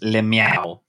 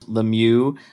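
First: The name ends with a sound like 'meow'. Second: The name ends with its ordinary final vowel.

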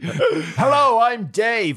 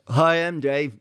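First: The voice sounds lively and bright. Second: The voice sounds flat and bored.

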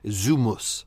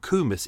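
First: The name begins with a Z sound. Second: The name begins with a K sound. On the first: The speaker calls it right. "as it's actually pronounced" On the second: The speaker calls it wrong. "his name wasn't Kumis"

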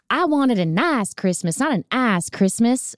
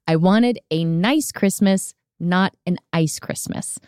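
First: It is said in her accent, 'ice' sounding like 'ass'. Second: It is said plainly, with a clear 'ice'.

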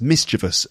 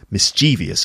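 First: The word is said in its standard form. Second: The word is said in a common variant form. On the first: The speaker calls it right. "it should be pronounced mischievous" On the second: The speaker calls it wrong. "many people say mischievous"

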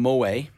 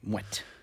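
First: The name is pronounced the French way. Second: The name is pronounced the Dutch way. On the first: This is how it would be if the surname were French. The speaker calls it wrong. "It was a French surname. It would have been Moët" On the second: This is how it is said because the surname is Dutch. The speaker calls it right. "because I think it was Dutch or something like that, they pronounce it Moët"

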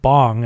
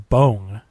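First: The name is said the common American way. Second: The name is said unlike the American way. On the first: The speaker calls it wrong. "as everyone says it in America" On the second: The speaker calls it right. "it's not pronounced like Bong"

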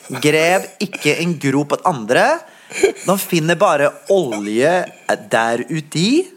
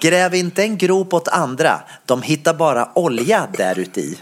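First: It is said in a Norwegian accent. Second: It is said in a Swedish accent.

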